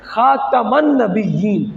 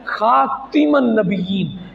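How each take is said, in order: First: The second syllable of the first word has an a vowel. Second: The second syllable of the first word lacks an a vowel. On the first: "ता के ऊपर जबर है" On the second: "बरिवायत वर्ष इब्न कालून"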